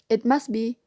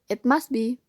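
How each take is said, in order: No difference in how they are said.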